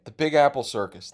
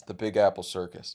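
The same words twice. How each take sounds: First: Announcing the title loudly; announcer voice. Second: Said in the usual way. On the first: Shown as a demonstration. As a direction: present it like a show name.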